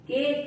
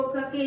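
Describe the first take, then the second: First: Said in the usual way. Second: कके in two syllables, final e sounded; wrong reading. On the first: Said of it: "इसको केक बोलेंगे". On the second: Shown as a demonstration. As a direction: misread cake as कके, "kuh-kay". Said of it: "इसको कके नहीं बोलेंगे".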